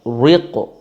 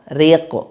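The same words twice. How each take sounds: First: The r is pronounced heavy and thick. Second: The r is pronounced light and thin. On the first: The speaker calls it wrong. "tidak boleh dibaca ... tebal, nggak boleh" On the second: The speaker calls it right. "dibaca tipis"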